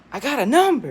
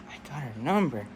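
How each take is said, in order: First: High, loud burst of triumph; excited exclamation. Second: Said in the usual way. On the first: Acted. Boy celebrating a girl's phone number, excited yell. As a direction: crow it out, thrilled.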